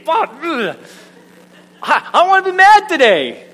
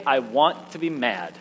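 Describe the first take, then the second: First: High, loud tantrum wail; hammed-up exasperated outburst, pitched way up; comic frustration. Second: Low, sulky insistence; mock grouchy refusal, pitch dropping; grumpy insistence. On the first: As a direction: whine it loudly like a thwarted child. Frustrated at own cheerful answer. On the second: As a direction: sulk it downward, determined to stay grumpy. Acted refusal to choose joy.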